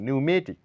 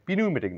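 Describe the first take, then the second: First: No 'p' sound is pronounced at the start. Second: A 'p' sound is pronounced at the start. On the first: The speaker calls it right. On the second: The speaker calls it wrong.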